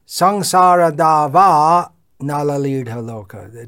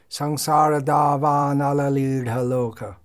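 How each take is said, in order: First: The phrase is split with a break inside. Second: The phrase is said in one continuous flow. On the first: The speaker calls it wrong. "It's not proper" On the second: The speaker calls it right. "or just in one continuous flow"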